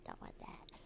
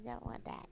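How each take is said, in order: First: Whispered Don't want that. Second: Said in the usual way. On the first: Real, not acted. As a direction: breathe Don't want that voicelessly. Repeated, second take whispered.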